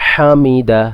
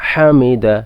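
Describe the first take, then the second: Both takes have the same delivery.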